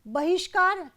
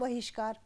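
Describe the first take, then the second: First: The word begins with a b sound. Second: The word begins with a v sound. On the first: The speaker calls it right. "बहिष्कार शुद्ध है" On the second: The speaker calls it wrong. "अशुद्ध क्या है"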